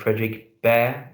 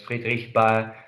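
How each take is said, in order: First: The name is said with English pronunciation. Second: The name is said with German pronunciation. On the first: "here we pronounce it like uh, Frederick Baer in English" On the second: "the German way to pronounce it"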